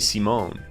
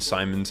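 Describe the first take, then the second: First: The name is pronounced the French way. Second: The name is pronounced the English way. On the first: "in French, I knew this, you say Simon" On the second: "how you say it in English"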